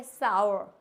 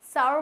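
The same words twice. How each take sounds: First: साउर said as sar, plain long a; correct pronunciation. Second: साउर said as saur, with a diphthong; wrong pronunciation. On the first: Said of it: "not सार". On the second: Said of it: "साउर बोलते हैं इसको हम". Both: Shown as a demonstration.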